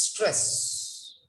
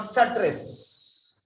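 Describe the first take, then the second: First: "stress" with s running straight into t, one syllable; softer "stress" with no added vowel and a long hiss; correct stress. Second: "stress" with a vowel after s, sa-tress; "stress" said slowly as suh-tress; mispronounced stress. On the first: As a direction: say "stress" as one clean cluster, str. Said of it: "It's stress". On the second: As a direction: slip "uh" into "stress" to make two syllables. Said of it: "It's not stress". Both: Shown as a demonstration.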